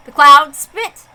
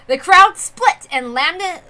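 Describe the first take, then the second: First: "cloud spit" with an L sound where an R belongs; r and l mixed up. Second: "crowd split" said carefully with a clear R; slow careful retake of "The crowd split"; corrected r. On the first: Narrator flubs the crowd line, slow and mixed up. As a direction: read "The cloud spit." mixing up R and L, slowly. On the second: Narrator corrects his flub with a slow careful retake. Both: Shown as a demonstration. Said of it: "I confuse my R's and L's".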